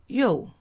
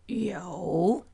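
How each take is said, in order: First: The pitch falls sharply from high. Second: The pitch dips low, then rises.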